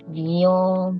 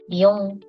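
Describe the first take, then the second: First: The middle vowel is stretched out long. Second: The middle vowel is short and clipped. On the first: The speaker calls it right. "オノマトペも伸ばしますよ" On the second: The speaker calls it wrong. "ビヨンじゃなくて"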